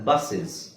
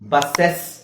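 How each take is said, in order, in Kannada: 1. ಈ ಅಂತ್ಯವನ್ನು ಚಿಕ್ಕ 'iz' ಆಗಿ ಉಚ್ಚರಿಸಲಾಗುತ್ತದೆ. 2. ಈ ಅಂತ್ಯವನ್ನು 'e' ಸ್ವರದಿಂದ ಉಚ್ಚರಿಸಲಾಗುತ್ತದೆ. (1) "ನಾನು ಐ ಝೆಡ್ ಹಾಕಿ ಹೇಳ್ತೀನಿ" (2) "ಬಸ್ಸೆಸ್ ಅಂತ ಹೇಳ್ತೀವ? ಇಲ್ಲ"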